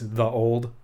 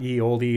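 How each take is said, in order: First: The first word starts with a th sound. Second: The first word starts with a y sound. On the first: The speaker calls it right. "it's the old" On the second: The speaker calls it wrong. "So it's not ye oldie"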